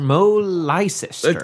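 The name is said with an American pronunciation. The speaker calls it wrong. "That's how they'd say it"

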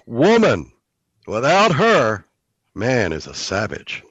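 There are pauses after 'woman' and after 'her'. A man is savage without a woman. "make it mean the opposite. ... Just the voice"

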